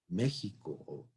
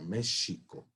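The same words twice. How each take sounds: First: The middle consonant is a throaty h sound. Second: The middle consonant is an sh sound. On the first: This is how the name is said today. "No se pronunciaba hace quinientos años" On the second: This is how the name was said five hundred years ago.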